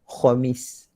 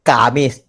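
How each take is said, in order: First: Khamis with a raspy throat kh; Khamis, kh from the upper throat; correct Arabic Khamis. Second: Kamis with a plain k sound; Kamis, plain k, no throat sound; wrong Malay Kamis. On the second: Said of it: "Orang Melayu sebut". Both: Shown as a demonstration.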